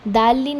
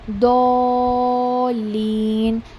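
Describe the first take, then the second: First: The first vowel has an open 'aa' sound. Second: The first vowel has a rounded 'o'-like sound. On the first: The speaker calls it wrong. "दाल-लीन नहीं पढ़ना है" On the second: The speaker calls it right. "एक ओ वाली साउंड आती है"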